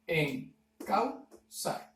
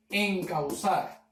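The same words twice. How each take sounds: First: EN, CAU, ZAR, very slow with pauses; dividido en sílabas. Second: Said in the usual way. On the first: Shown as a demonstration. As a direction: break "encauzar" into three detached syllables. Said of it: "En la segunda sílaba". ("encauzar" silabeado muy lento, con pausas) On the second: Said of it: "O en la palabra".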